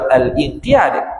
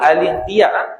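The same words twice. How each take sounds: First: A glottal stop is made before inqiyad. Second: The article links smoothly into inqiyad, no glottal stop. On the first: The speaker calls it wrong. "jangan baca al-inqiyad. Kerana dia bukan hamzah qata'" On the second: The speaker calls it right. "bacanya al-inqiyad ... dia hamzah wasal"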